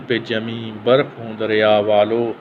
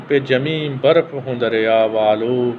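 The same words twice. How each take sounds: The two takes are said the same way.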